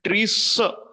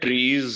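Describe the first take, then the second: First: The plural ending is a hissing s sound. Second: The plural ending is a buzzing z sound. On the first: The speaker calls it wrong. "ઉચ્ચાર ટ્રી સ સ નહીં કરીએ" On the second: The speaker calls it right. "એમાં ઝ કરીશું"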